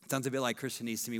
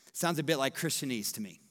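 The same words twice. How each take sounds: First: Quick, lower throwaway take; rapid muttered aside; faster and softer repeat. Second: Said in the usual way. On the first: Shown as a demonstration. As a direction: toss it off fast under the breath. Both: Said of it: "repeated line".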